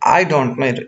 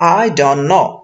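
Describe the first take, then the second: First: The t in 'don't' is pronounced. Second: The t in 'don't' is dropped. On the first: The speaker calls it wrong. "এমনটা হয় না" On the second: The speaker calls it right. "এখানকার টিটা চলে যায়"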